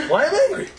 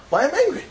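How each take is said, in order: First: Much higher, building incredulous repeat; rhetorical question. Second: Higher, asking why I'm angry; rhetorical question. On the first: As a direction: push the question even higher in disbelief. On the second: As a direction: ask yourself, pitch up. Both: Shown as a demonstration. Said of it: "so why I'm getting angry?".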